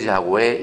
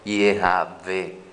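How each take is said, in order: First: The name is said in two syllables, Yah-weh. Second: The name is said in three syllables, Ye-ha-ve. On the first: The speaker calls it wrong. "esa pronunciación que se mueve por el internet" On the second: The speaker calls it right. "se dice Yehavé"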